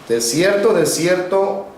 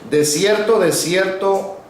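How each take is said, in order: No difference in how they are said.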